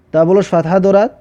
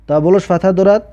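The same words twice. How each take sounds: The two takes are said the same way.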